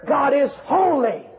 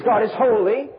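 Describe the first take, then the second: First: "holy" high, drawn out, then falling; climactic emphasis. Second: "holy" stated firmly with a rise; declaration. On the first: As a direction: take "holy" further, slow and high. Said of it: "and then even further". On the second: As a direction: state it first, leaving "holy" open. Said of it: "the declaration". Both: Shown as a demonstration.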